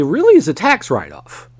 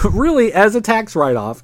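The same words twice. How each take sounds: First: Real accidental crack in the voice. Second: Said in the usual way. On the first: Real, not acted. Podcaster explaining a wrestling company's finances, voice cracking. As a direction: voice jumps up and breaks mid-phrase. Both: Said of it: "my voice just cracked there".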